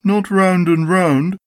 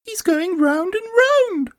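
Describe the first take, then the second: First: Slow, raised-pitch dismissive Eeyore; cold Eeyore. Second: Very high, slow little Roo voice; much impressed Roo. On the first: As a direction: correct slowly as affronted Eeyore. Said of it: "said Eeyore coldly". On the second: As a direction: marvel slowly as tiny Roo. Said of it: "much impressed". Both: A narrator's reading.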